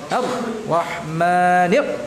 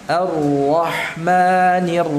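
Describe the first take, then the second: No difference in how they are said.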